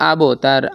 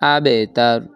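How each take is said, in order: First: The b ends with a rounded, o-like bounce. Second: The b ends with a light, e-like bounce. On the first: The speaker calls it wrong. "আবো তার এরকম বলা যাবে না" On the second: The speaker calls it right. "এখানের কলকলাটা নিম্নমুখী হবে"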